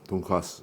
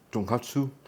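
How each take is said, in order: First: It is said without a clear T sound. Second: It is said with a clear T sound. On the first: It names the Korean version of the dish. "That's what I was pronouncing without the T" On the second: It names the Japanese version of the dish. "so I guess I switch over to the, to the T"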